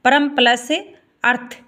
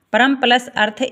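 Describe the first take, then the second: First: Slow, syllable by syllable split of परम plus earth; slow teacher demo. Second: Said in the usual way. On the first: Shown as a demonstration. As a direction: break परम plus earth apart slowly for the class. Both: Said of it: "परमार्थ".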